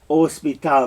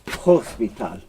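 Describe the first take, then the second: First: The word starts with no h sound. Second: The word starts with an h sound. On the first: The speaker calls it right. "do not say H" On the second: The speaker calls it wrong. "not hospital"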